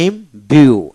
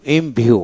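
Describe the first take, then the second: First: ইমভিউ slowly as im, then biu; two separate beats in ইমভিউ; split into syllables. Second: Said in the usual way. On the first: Shown as a demonstration. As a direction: break ইমভিউ after im. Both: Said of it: "এইভাবে".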